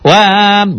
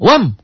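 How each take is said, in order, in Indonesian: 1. Vokalnya dipanjangkan. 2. Vokalnya tetap pendek. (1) "Jangan wam" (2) "alifnya ingat tidak sebagai pemanjang"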